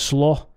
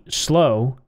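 First: It is said with a Swedish-style vowel. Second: It is said with a plain English vowel. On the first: "he says that it is pronounced slow, or something like this" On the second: "They say it's pronounced slow"

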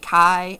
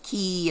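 First: The word sounds like 'chai'. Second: The word sounds like 'key'. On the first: The speaker calls it wrong. "I used to say chi as a kid" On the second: The speaker calls it right. "and then I learned it was key"

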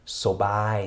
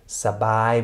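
First: The first syllable has an 'o' vowel. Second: The first syllable has an 'a' vowel. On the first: The speaker calls it wrong. "wir können nicht sagen Sobai" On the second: The speaker calls it right. "sondern Sabai"

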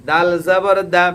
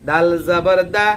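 Both takes have the same delivery.

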